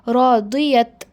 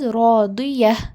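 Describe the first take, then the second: First: The word ends with a t sound. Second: The word ends with an h sound. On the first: The speaker calls it wrong. "I am not sto- sound uh, stopping with radiyat" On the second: The speaker calls it right. "Am I am stopping as radiyah"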